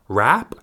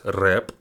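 First: The vowel is an open 'a' sound. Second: The vowel is an 'e' sound. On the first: The speaker calls it wrong. "It's not rap" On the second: The speaker calls it right. "it's rep. It's a versus e vowels"

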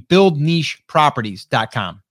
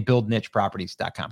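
First: 'Niche' is said the British way. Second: 'Niche' is said the speaker's usual way. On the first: "for any of my UK friends over there or anyone from other places in the world that pronounce it niche" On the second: "because that's how I say it"

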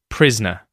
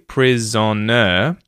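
First: The middle syllable is dropped, leaving two. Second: All three syllables are pronounced clearly. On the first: "I actually reduce this to just prisoner" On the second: "I can say each syllable clearly"

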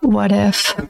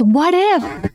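First: It is said in a fearful, anxious tone. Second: It is said in a hopeful, positive tone. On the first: Worry about what might go wrong. The speaker calls it wrong. "not what if" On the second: Openness to good possibilities. The speaker calls it right. "You can just expand if you use the tone of voice as what if"

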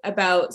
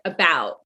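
First: It is said in a natural Canadian accent. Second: It is said in an American accent. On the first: "I think I say about super normal" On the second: "I definitely don't say about like an American, which to me sounds like about"

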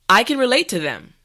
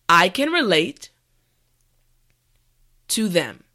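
First: The sentence is said at normal speed. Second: The sentence is said slowly. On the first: "the last time at a regular pace" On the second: "this time repeat after me"

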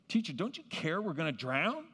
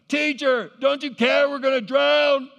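First: It is read calmly, without urgency. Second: It is said urgently, like a shout.

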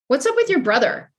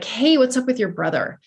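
First: It sounds harsh, demanding and interrogating. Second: It sounds warm, curious and concerned.

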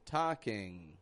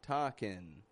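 First: The word ends with a back ng sound. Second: The word ends with a back ng sound.

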